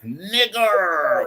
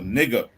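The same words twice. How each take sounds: First: The final R sound is strongly pronounced. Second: The final R sound is dropped. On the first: "with the hard R, make it roll from his tongue" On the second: "without the hard R"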